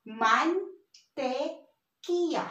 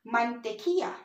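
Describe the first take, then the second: First: Mantequilla very slowly, broken into man, te, qui-lla; syllable by syllable. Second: Said in the usual way. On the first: Shown as a demonstration. Teacher builds up the word for learners, slow separated syllables. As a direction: draw out each syllable of mantequilla with pauses. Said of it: "So this is". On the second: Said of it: "Again, mantequilla".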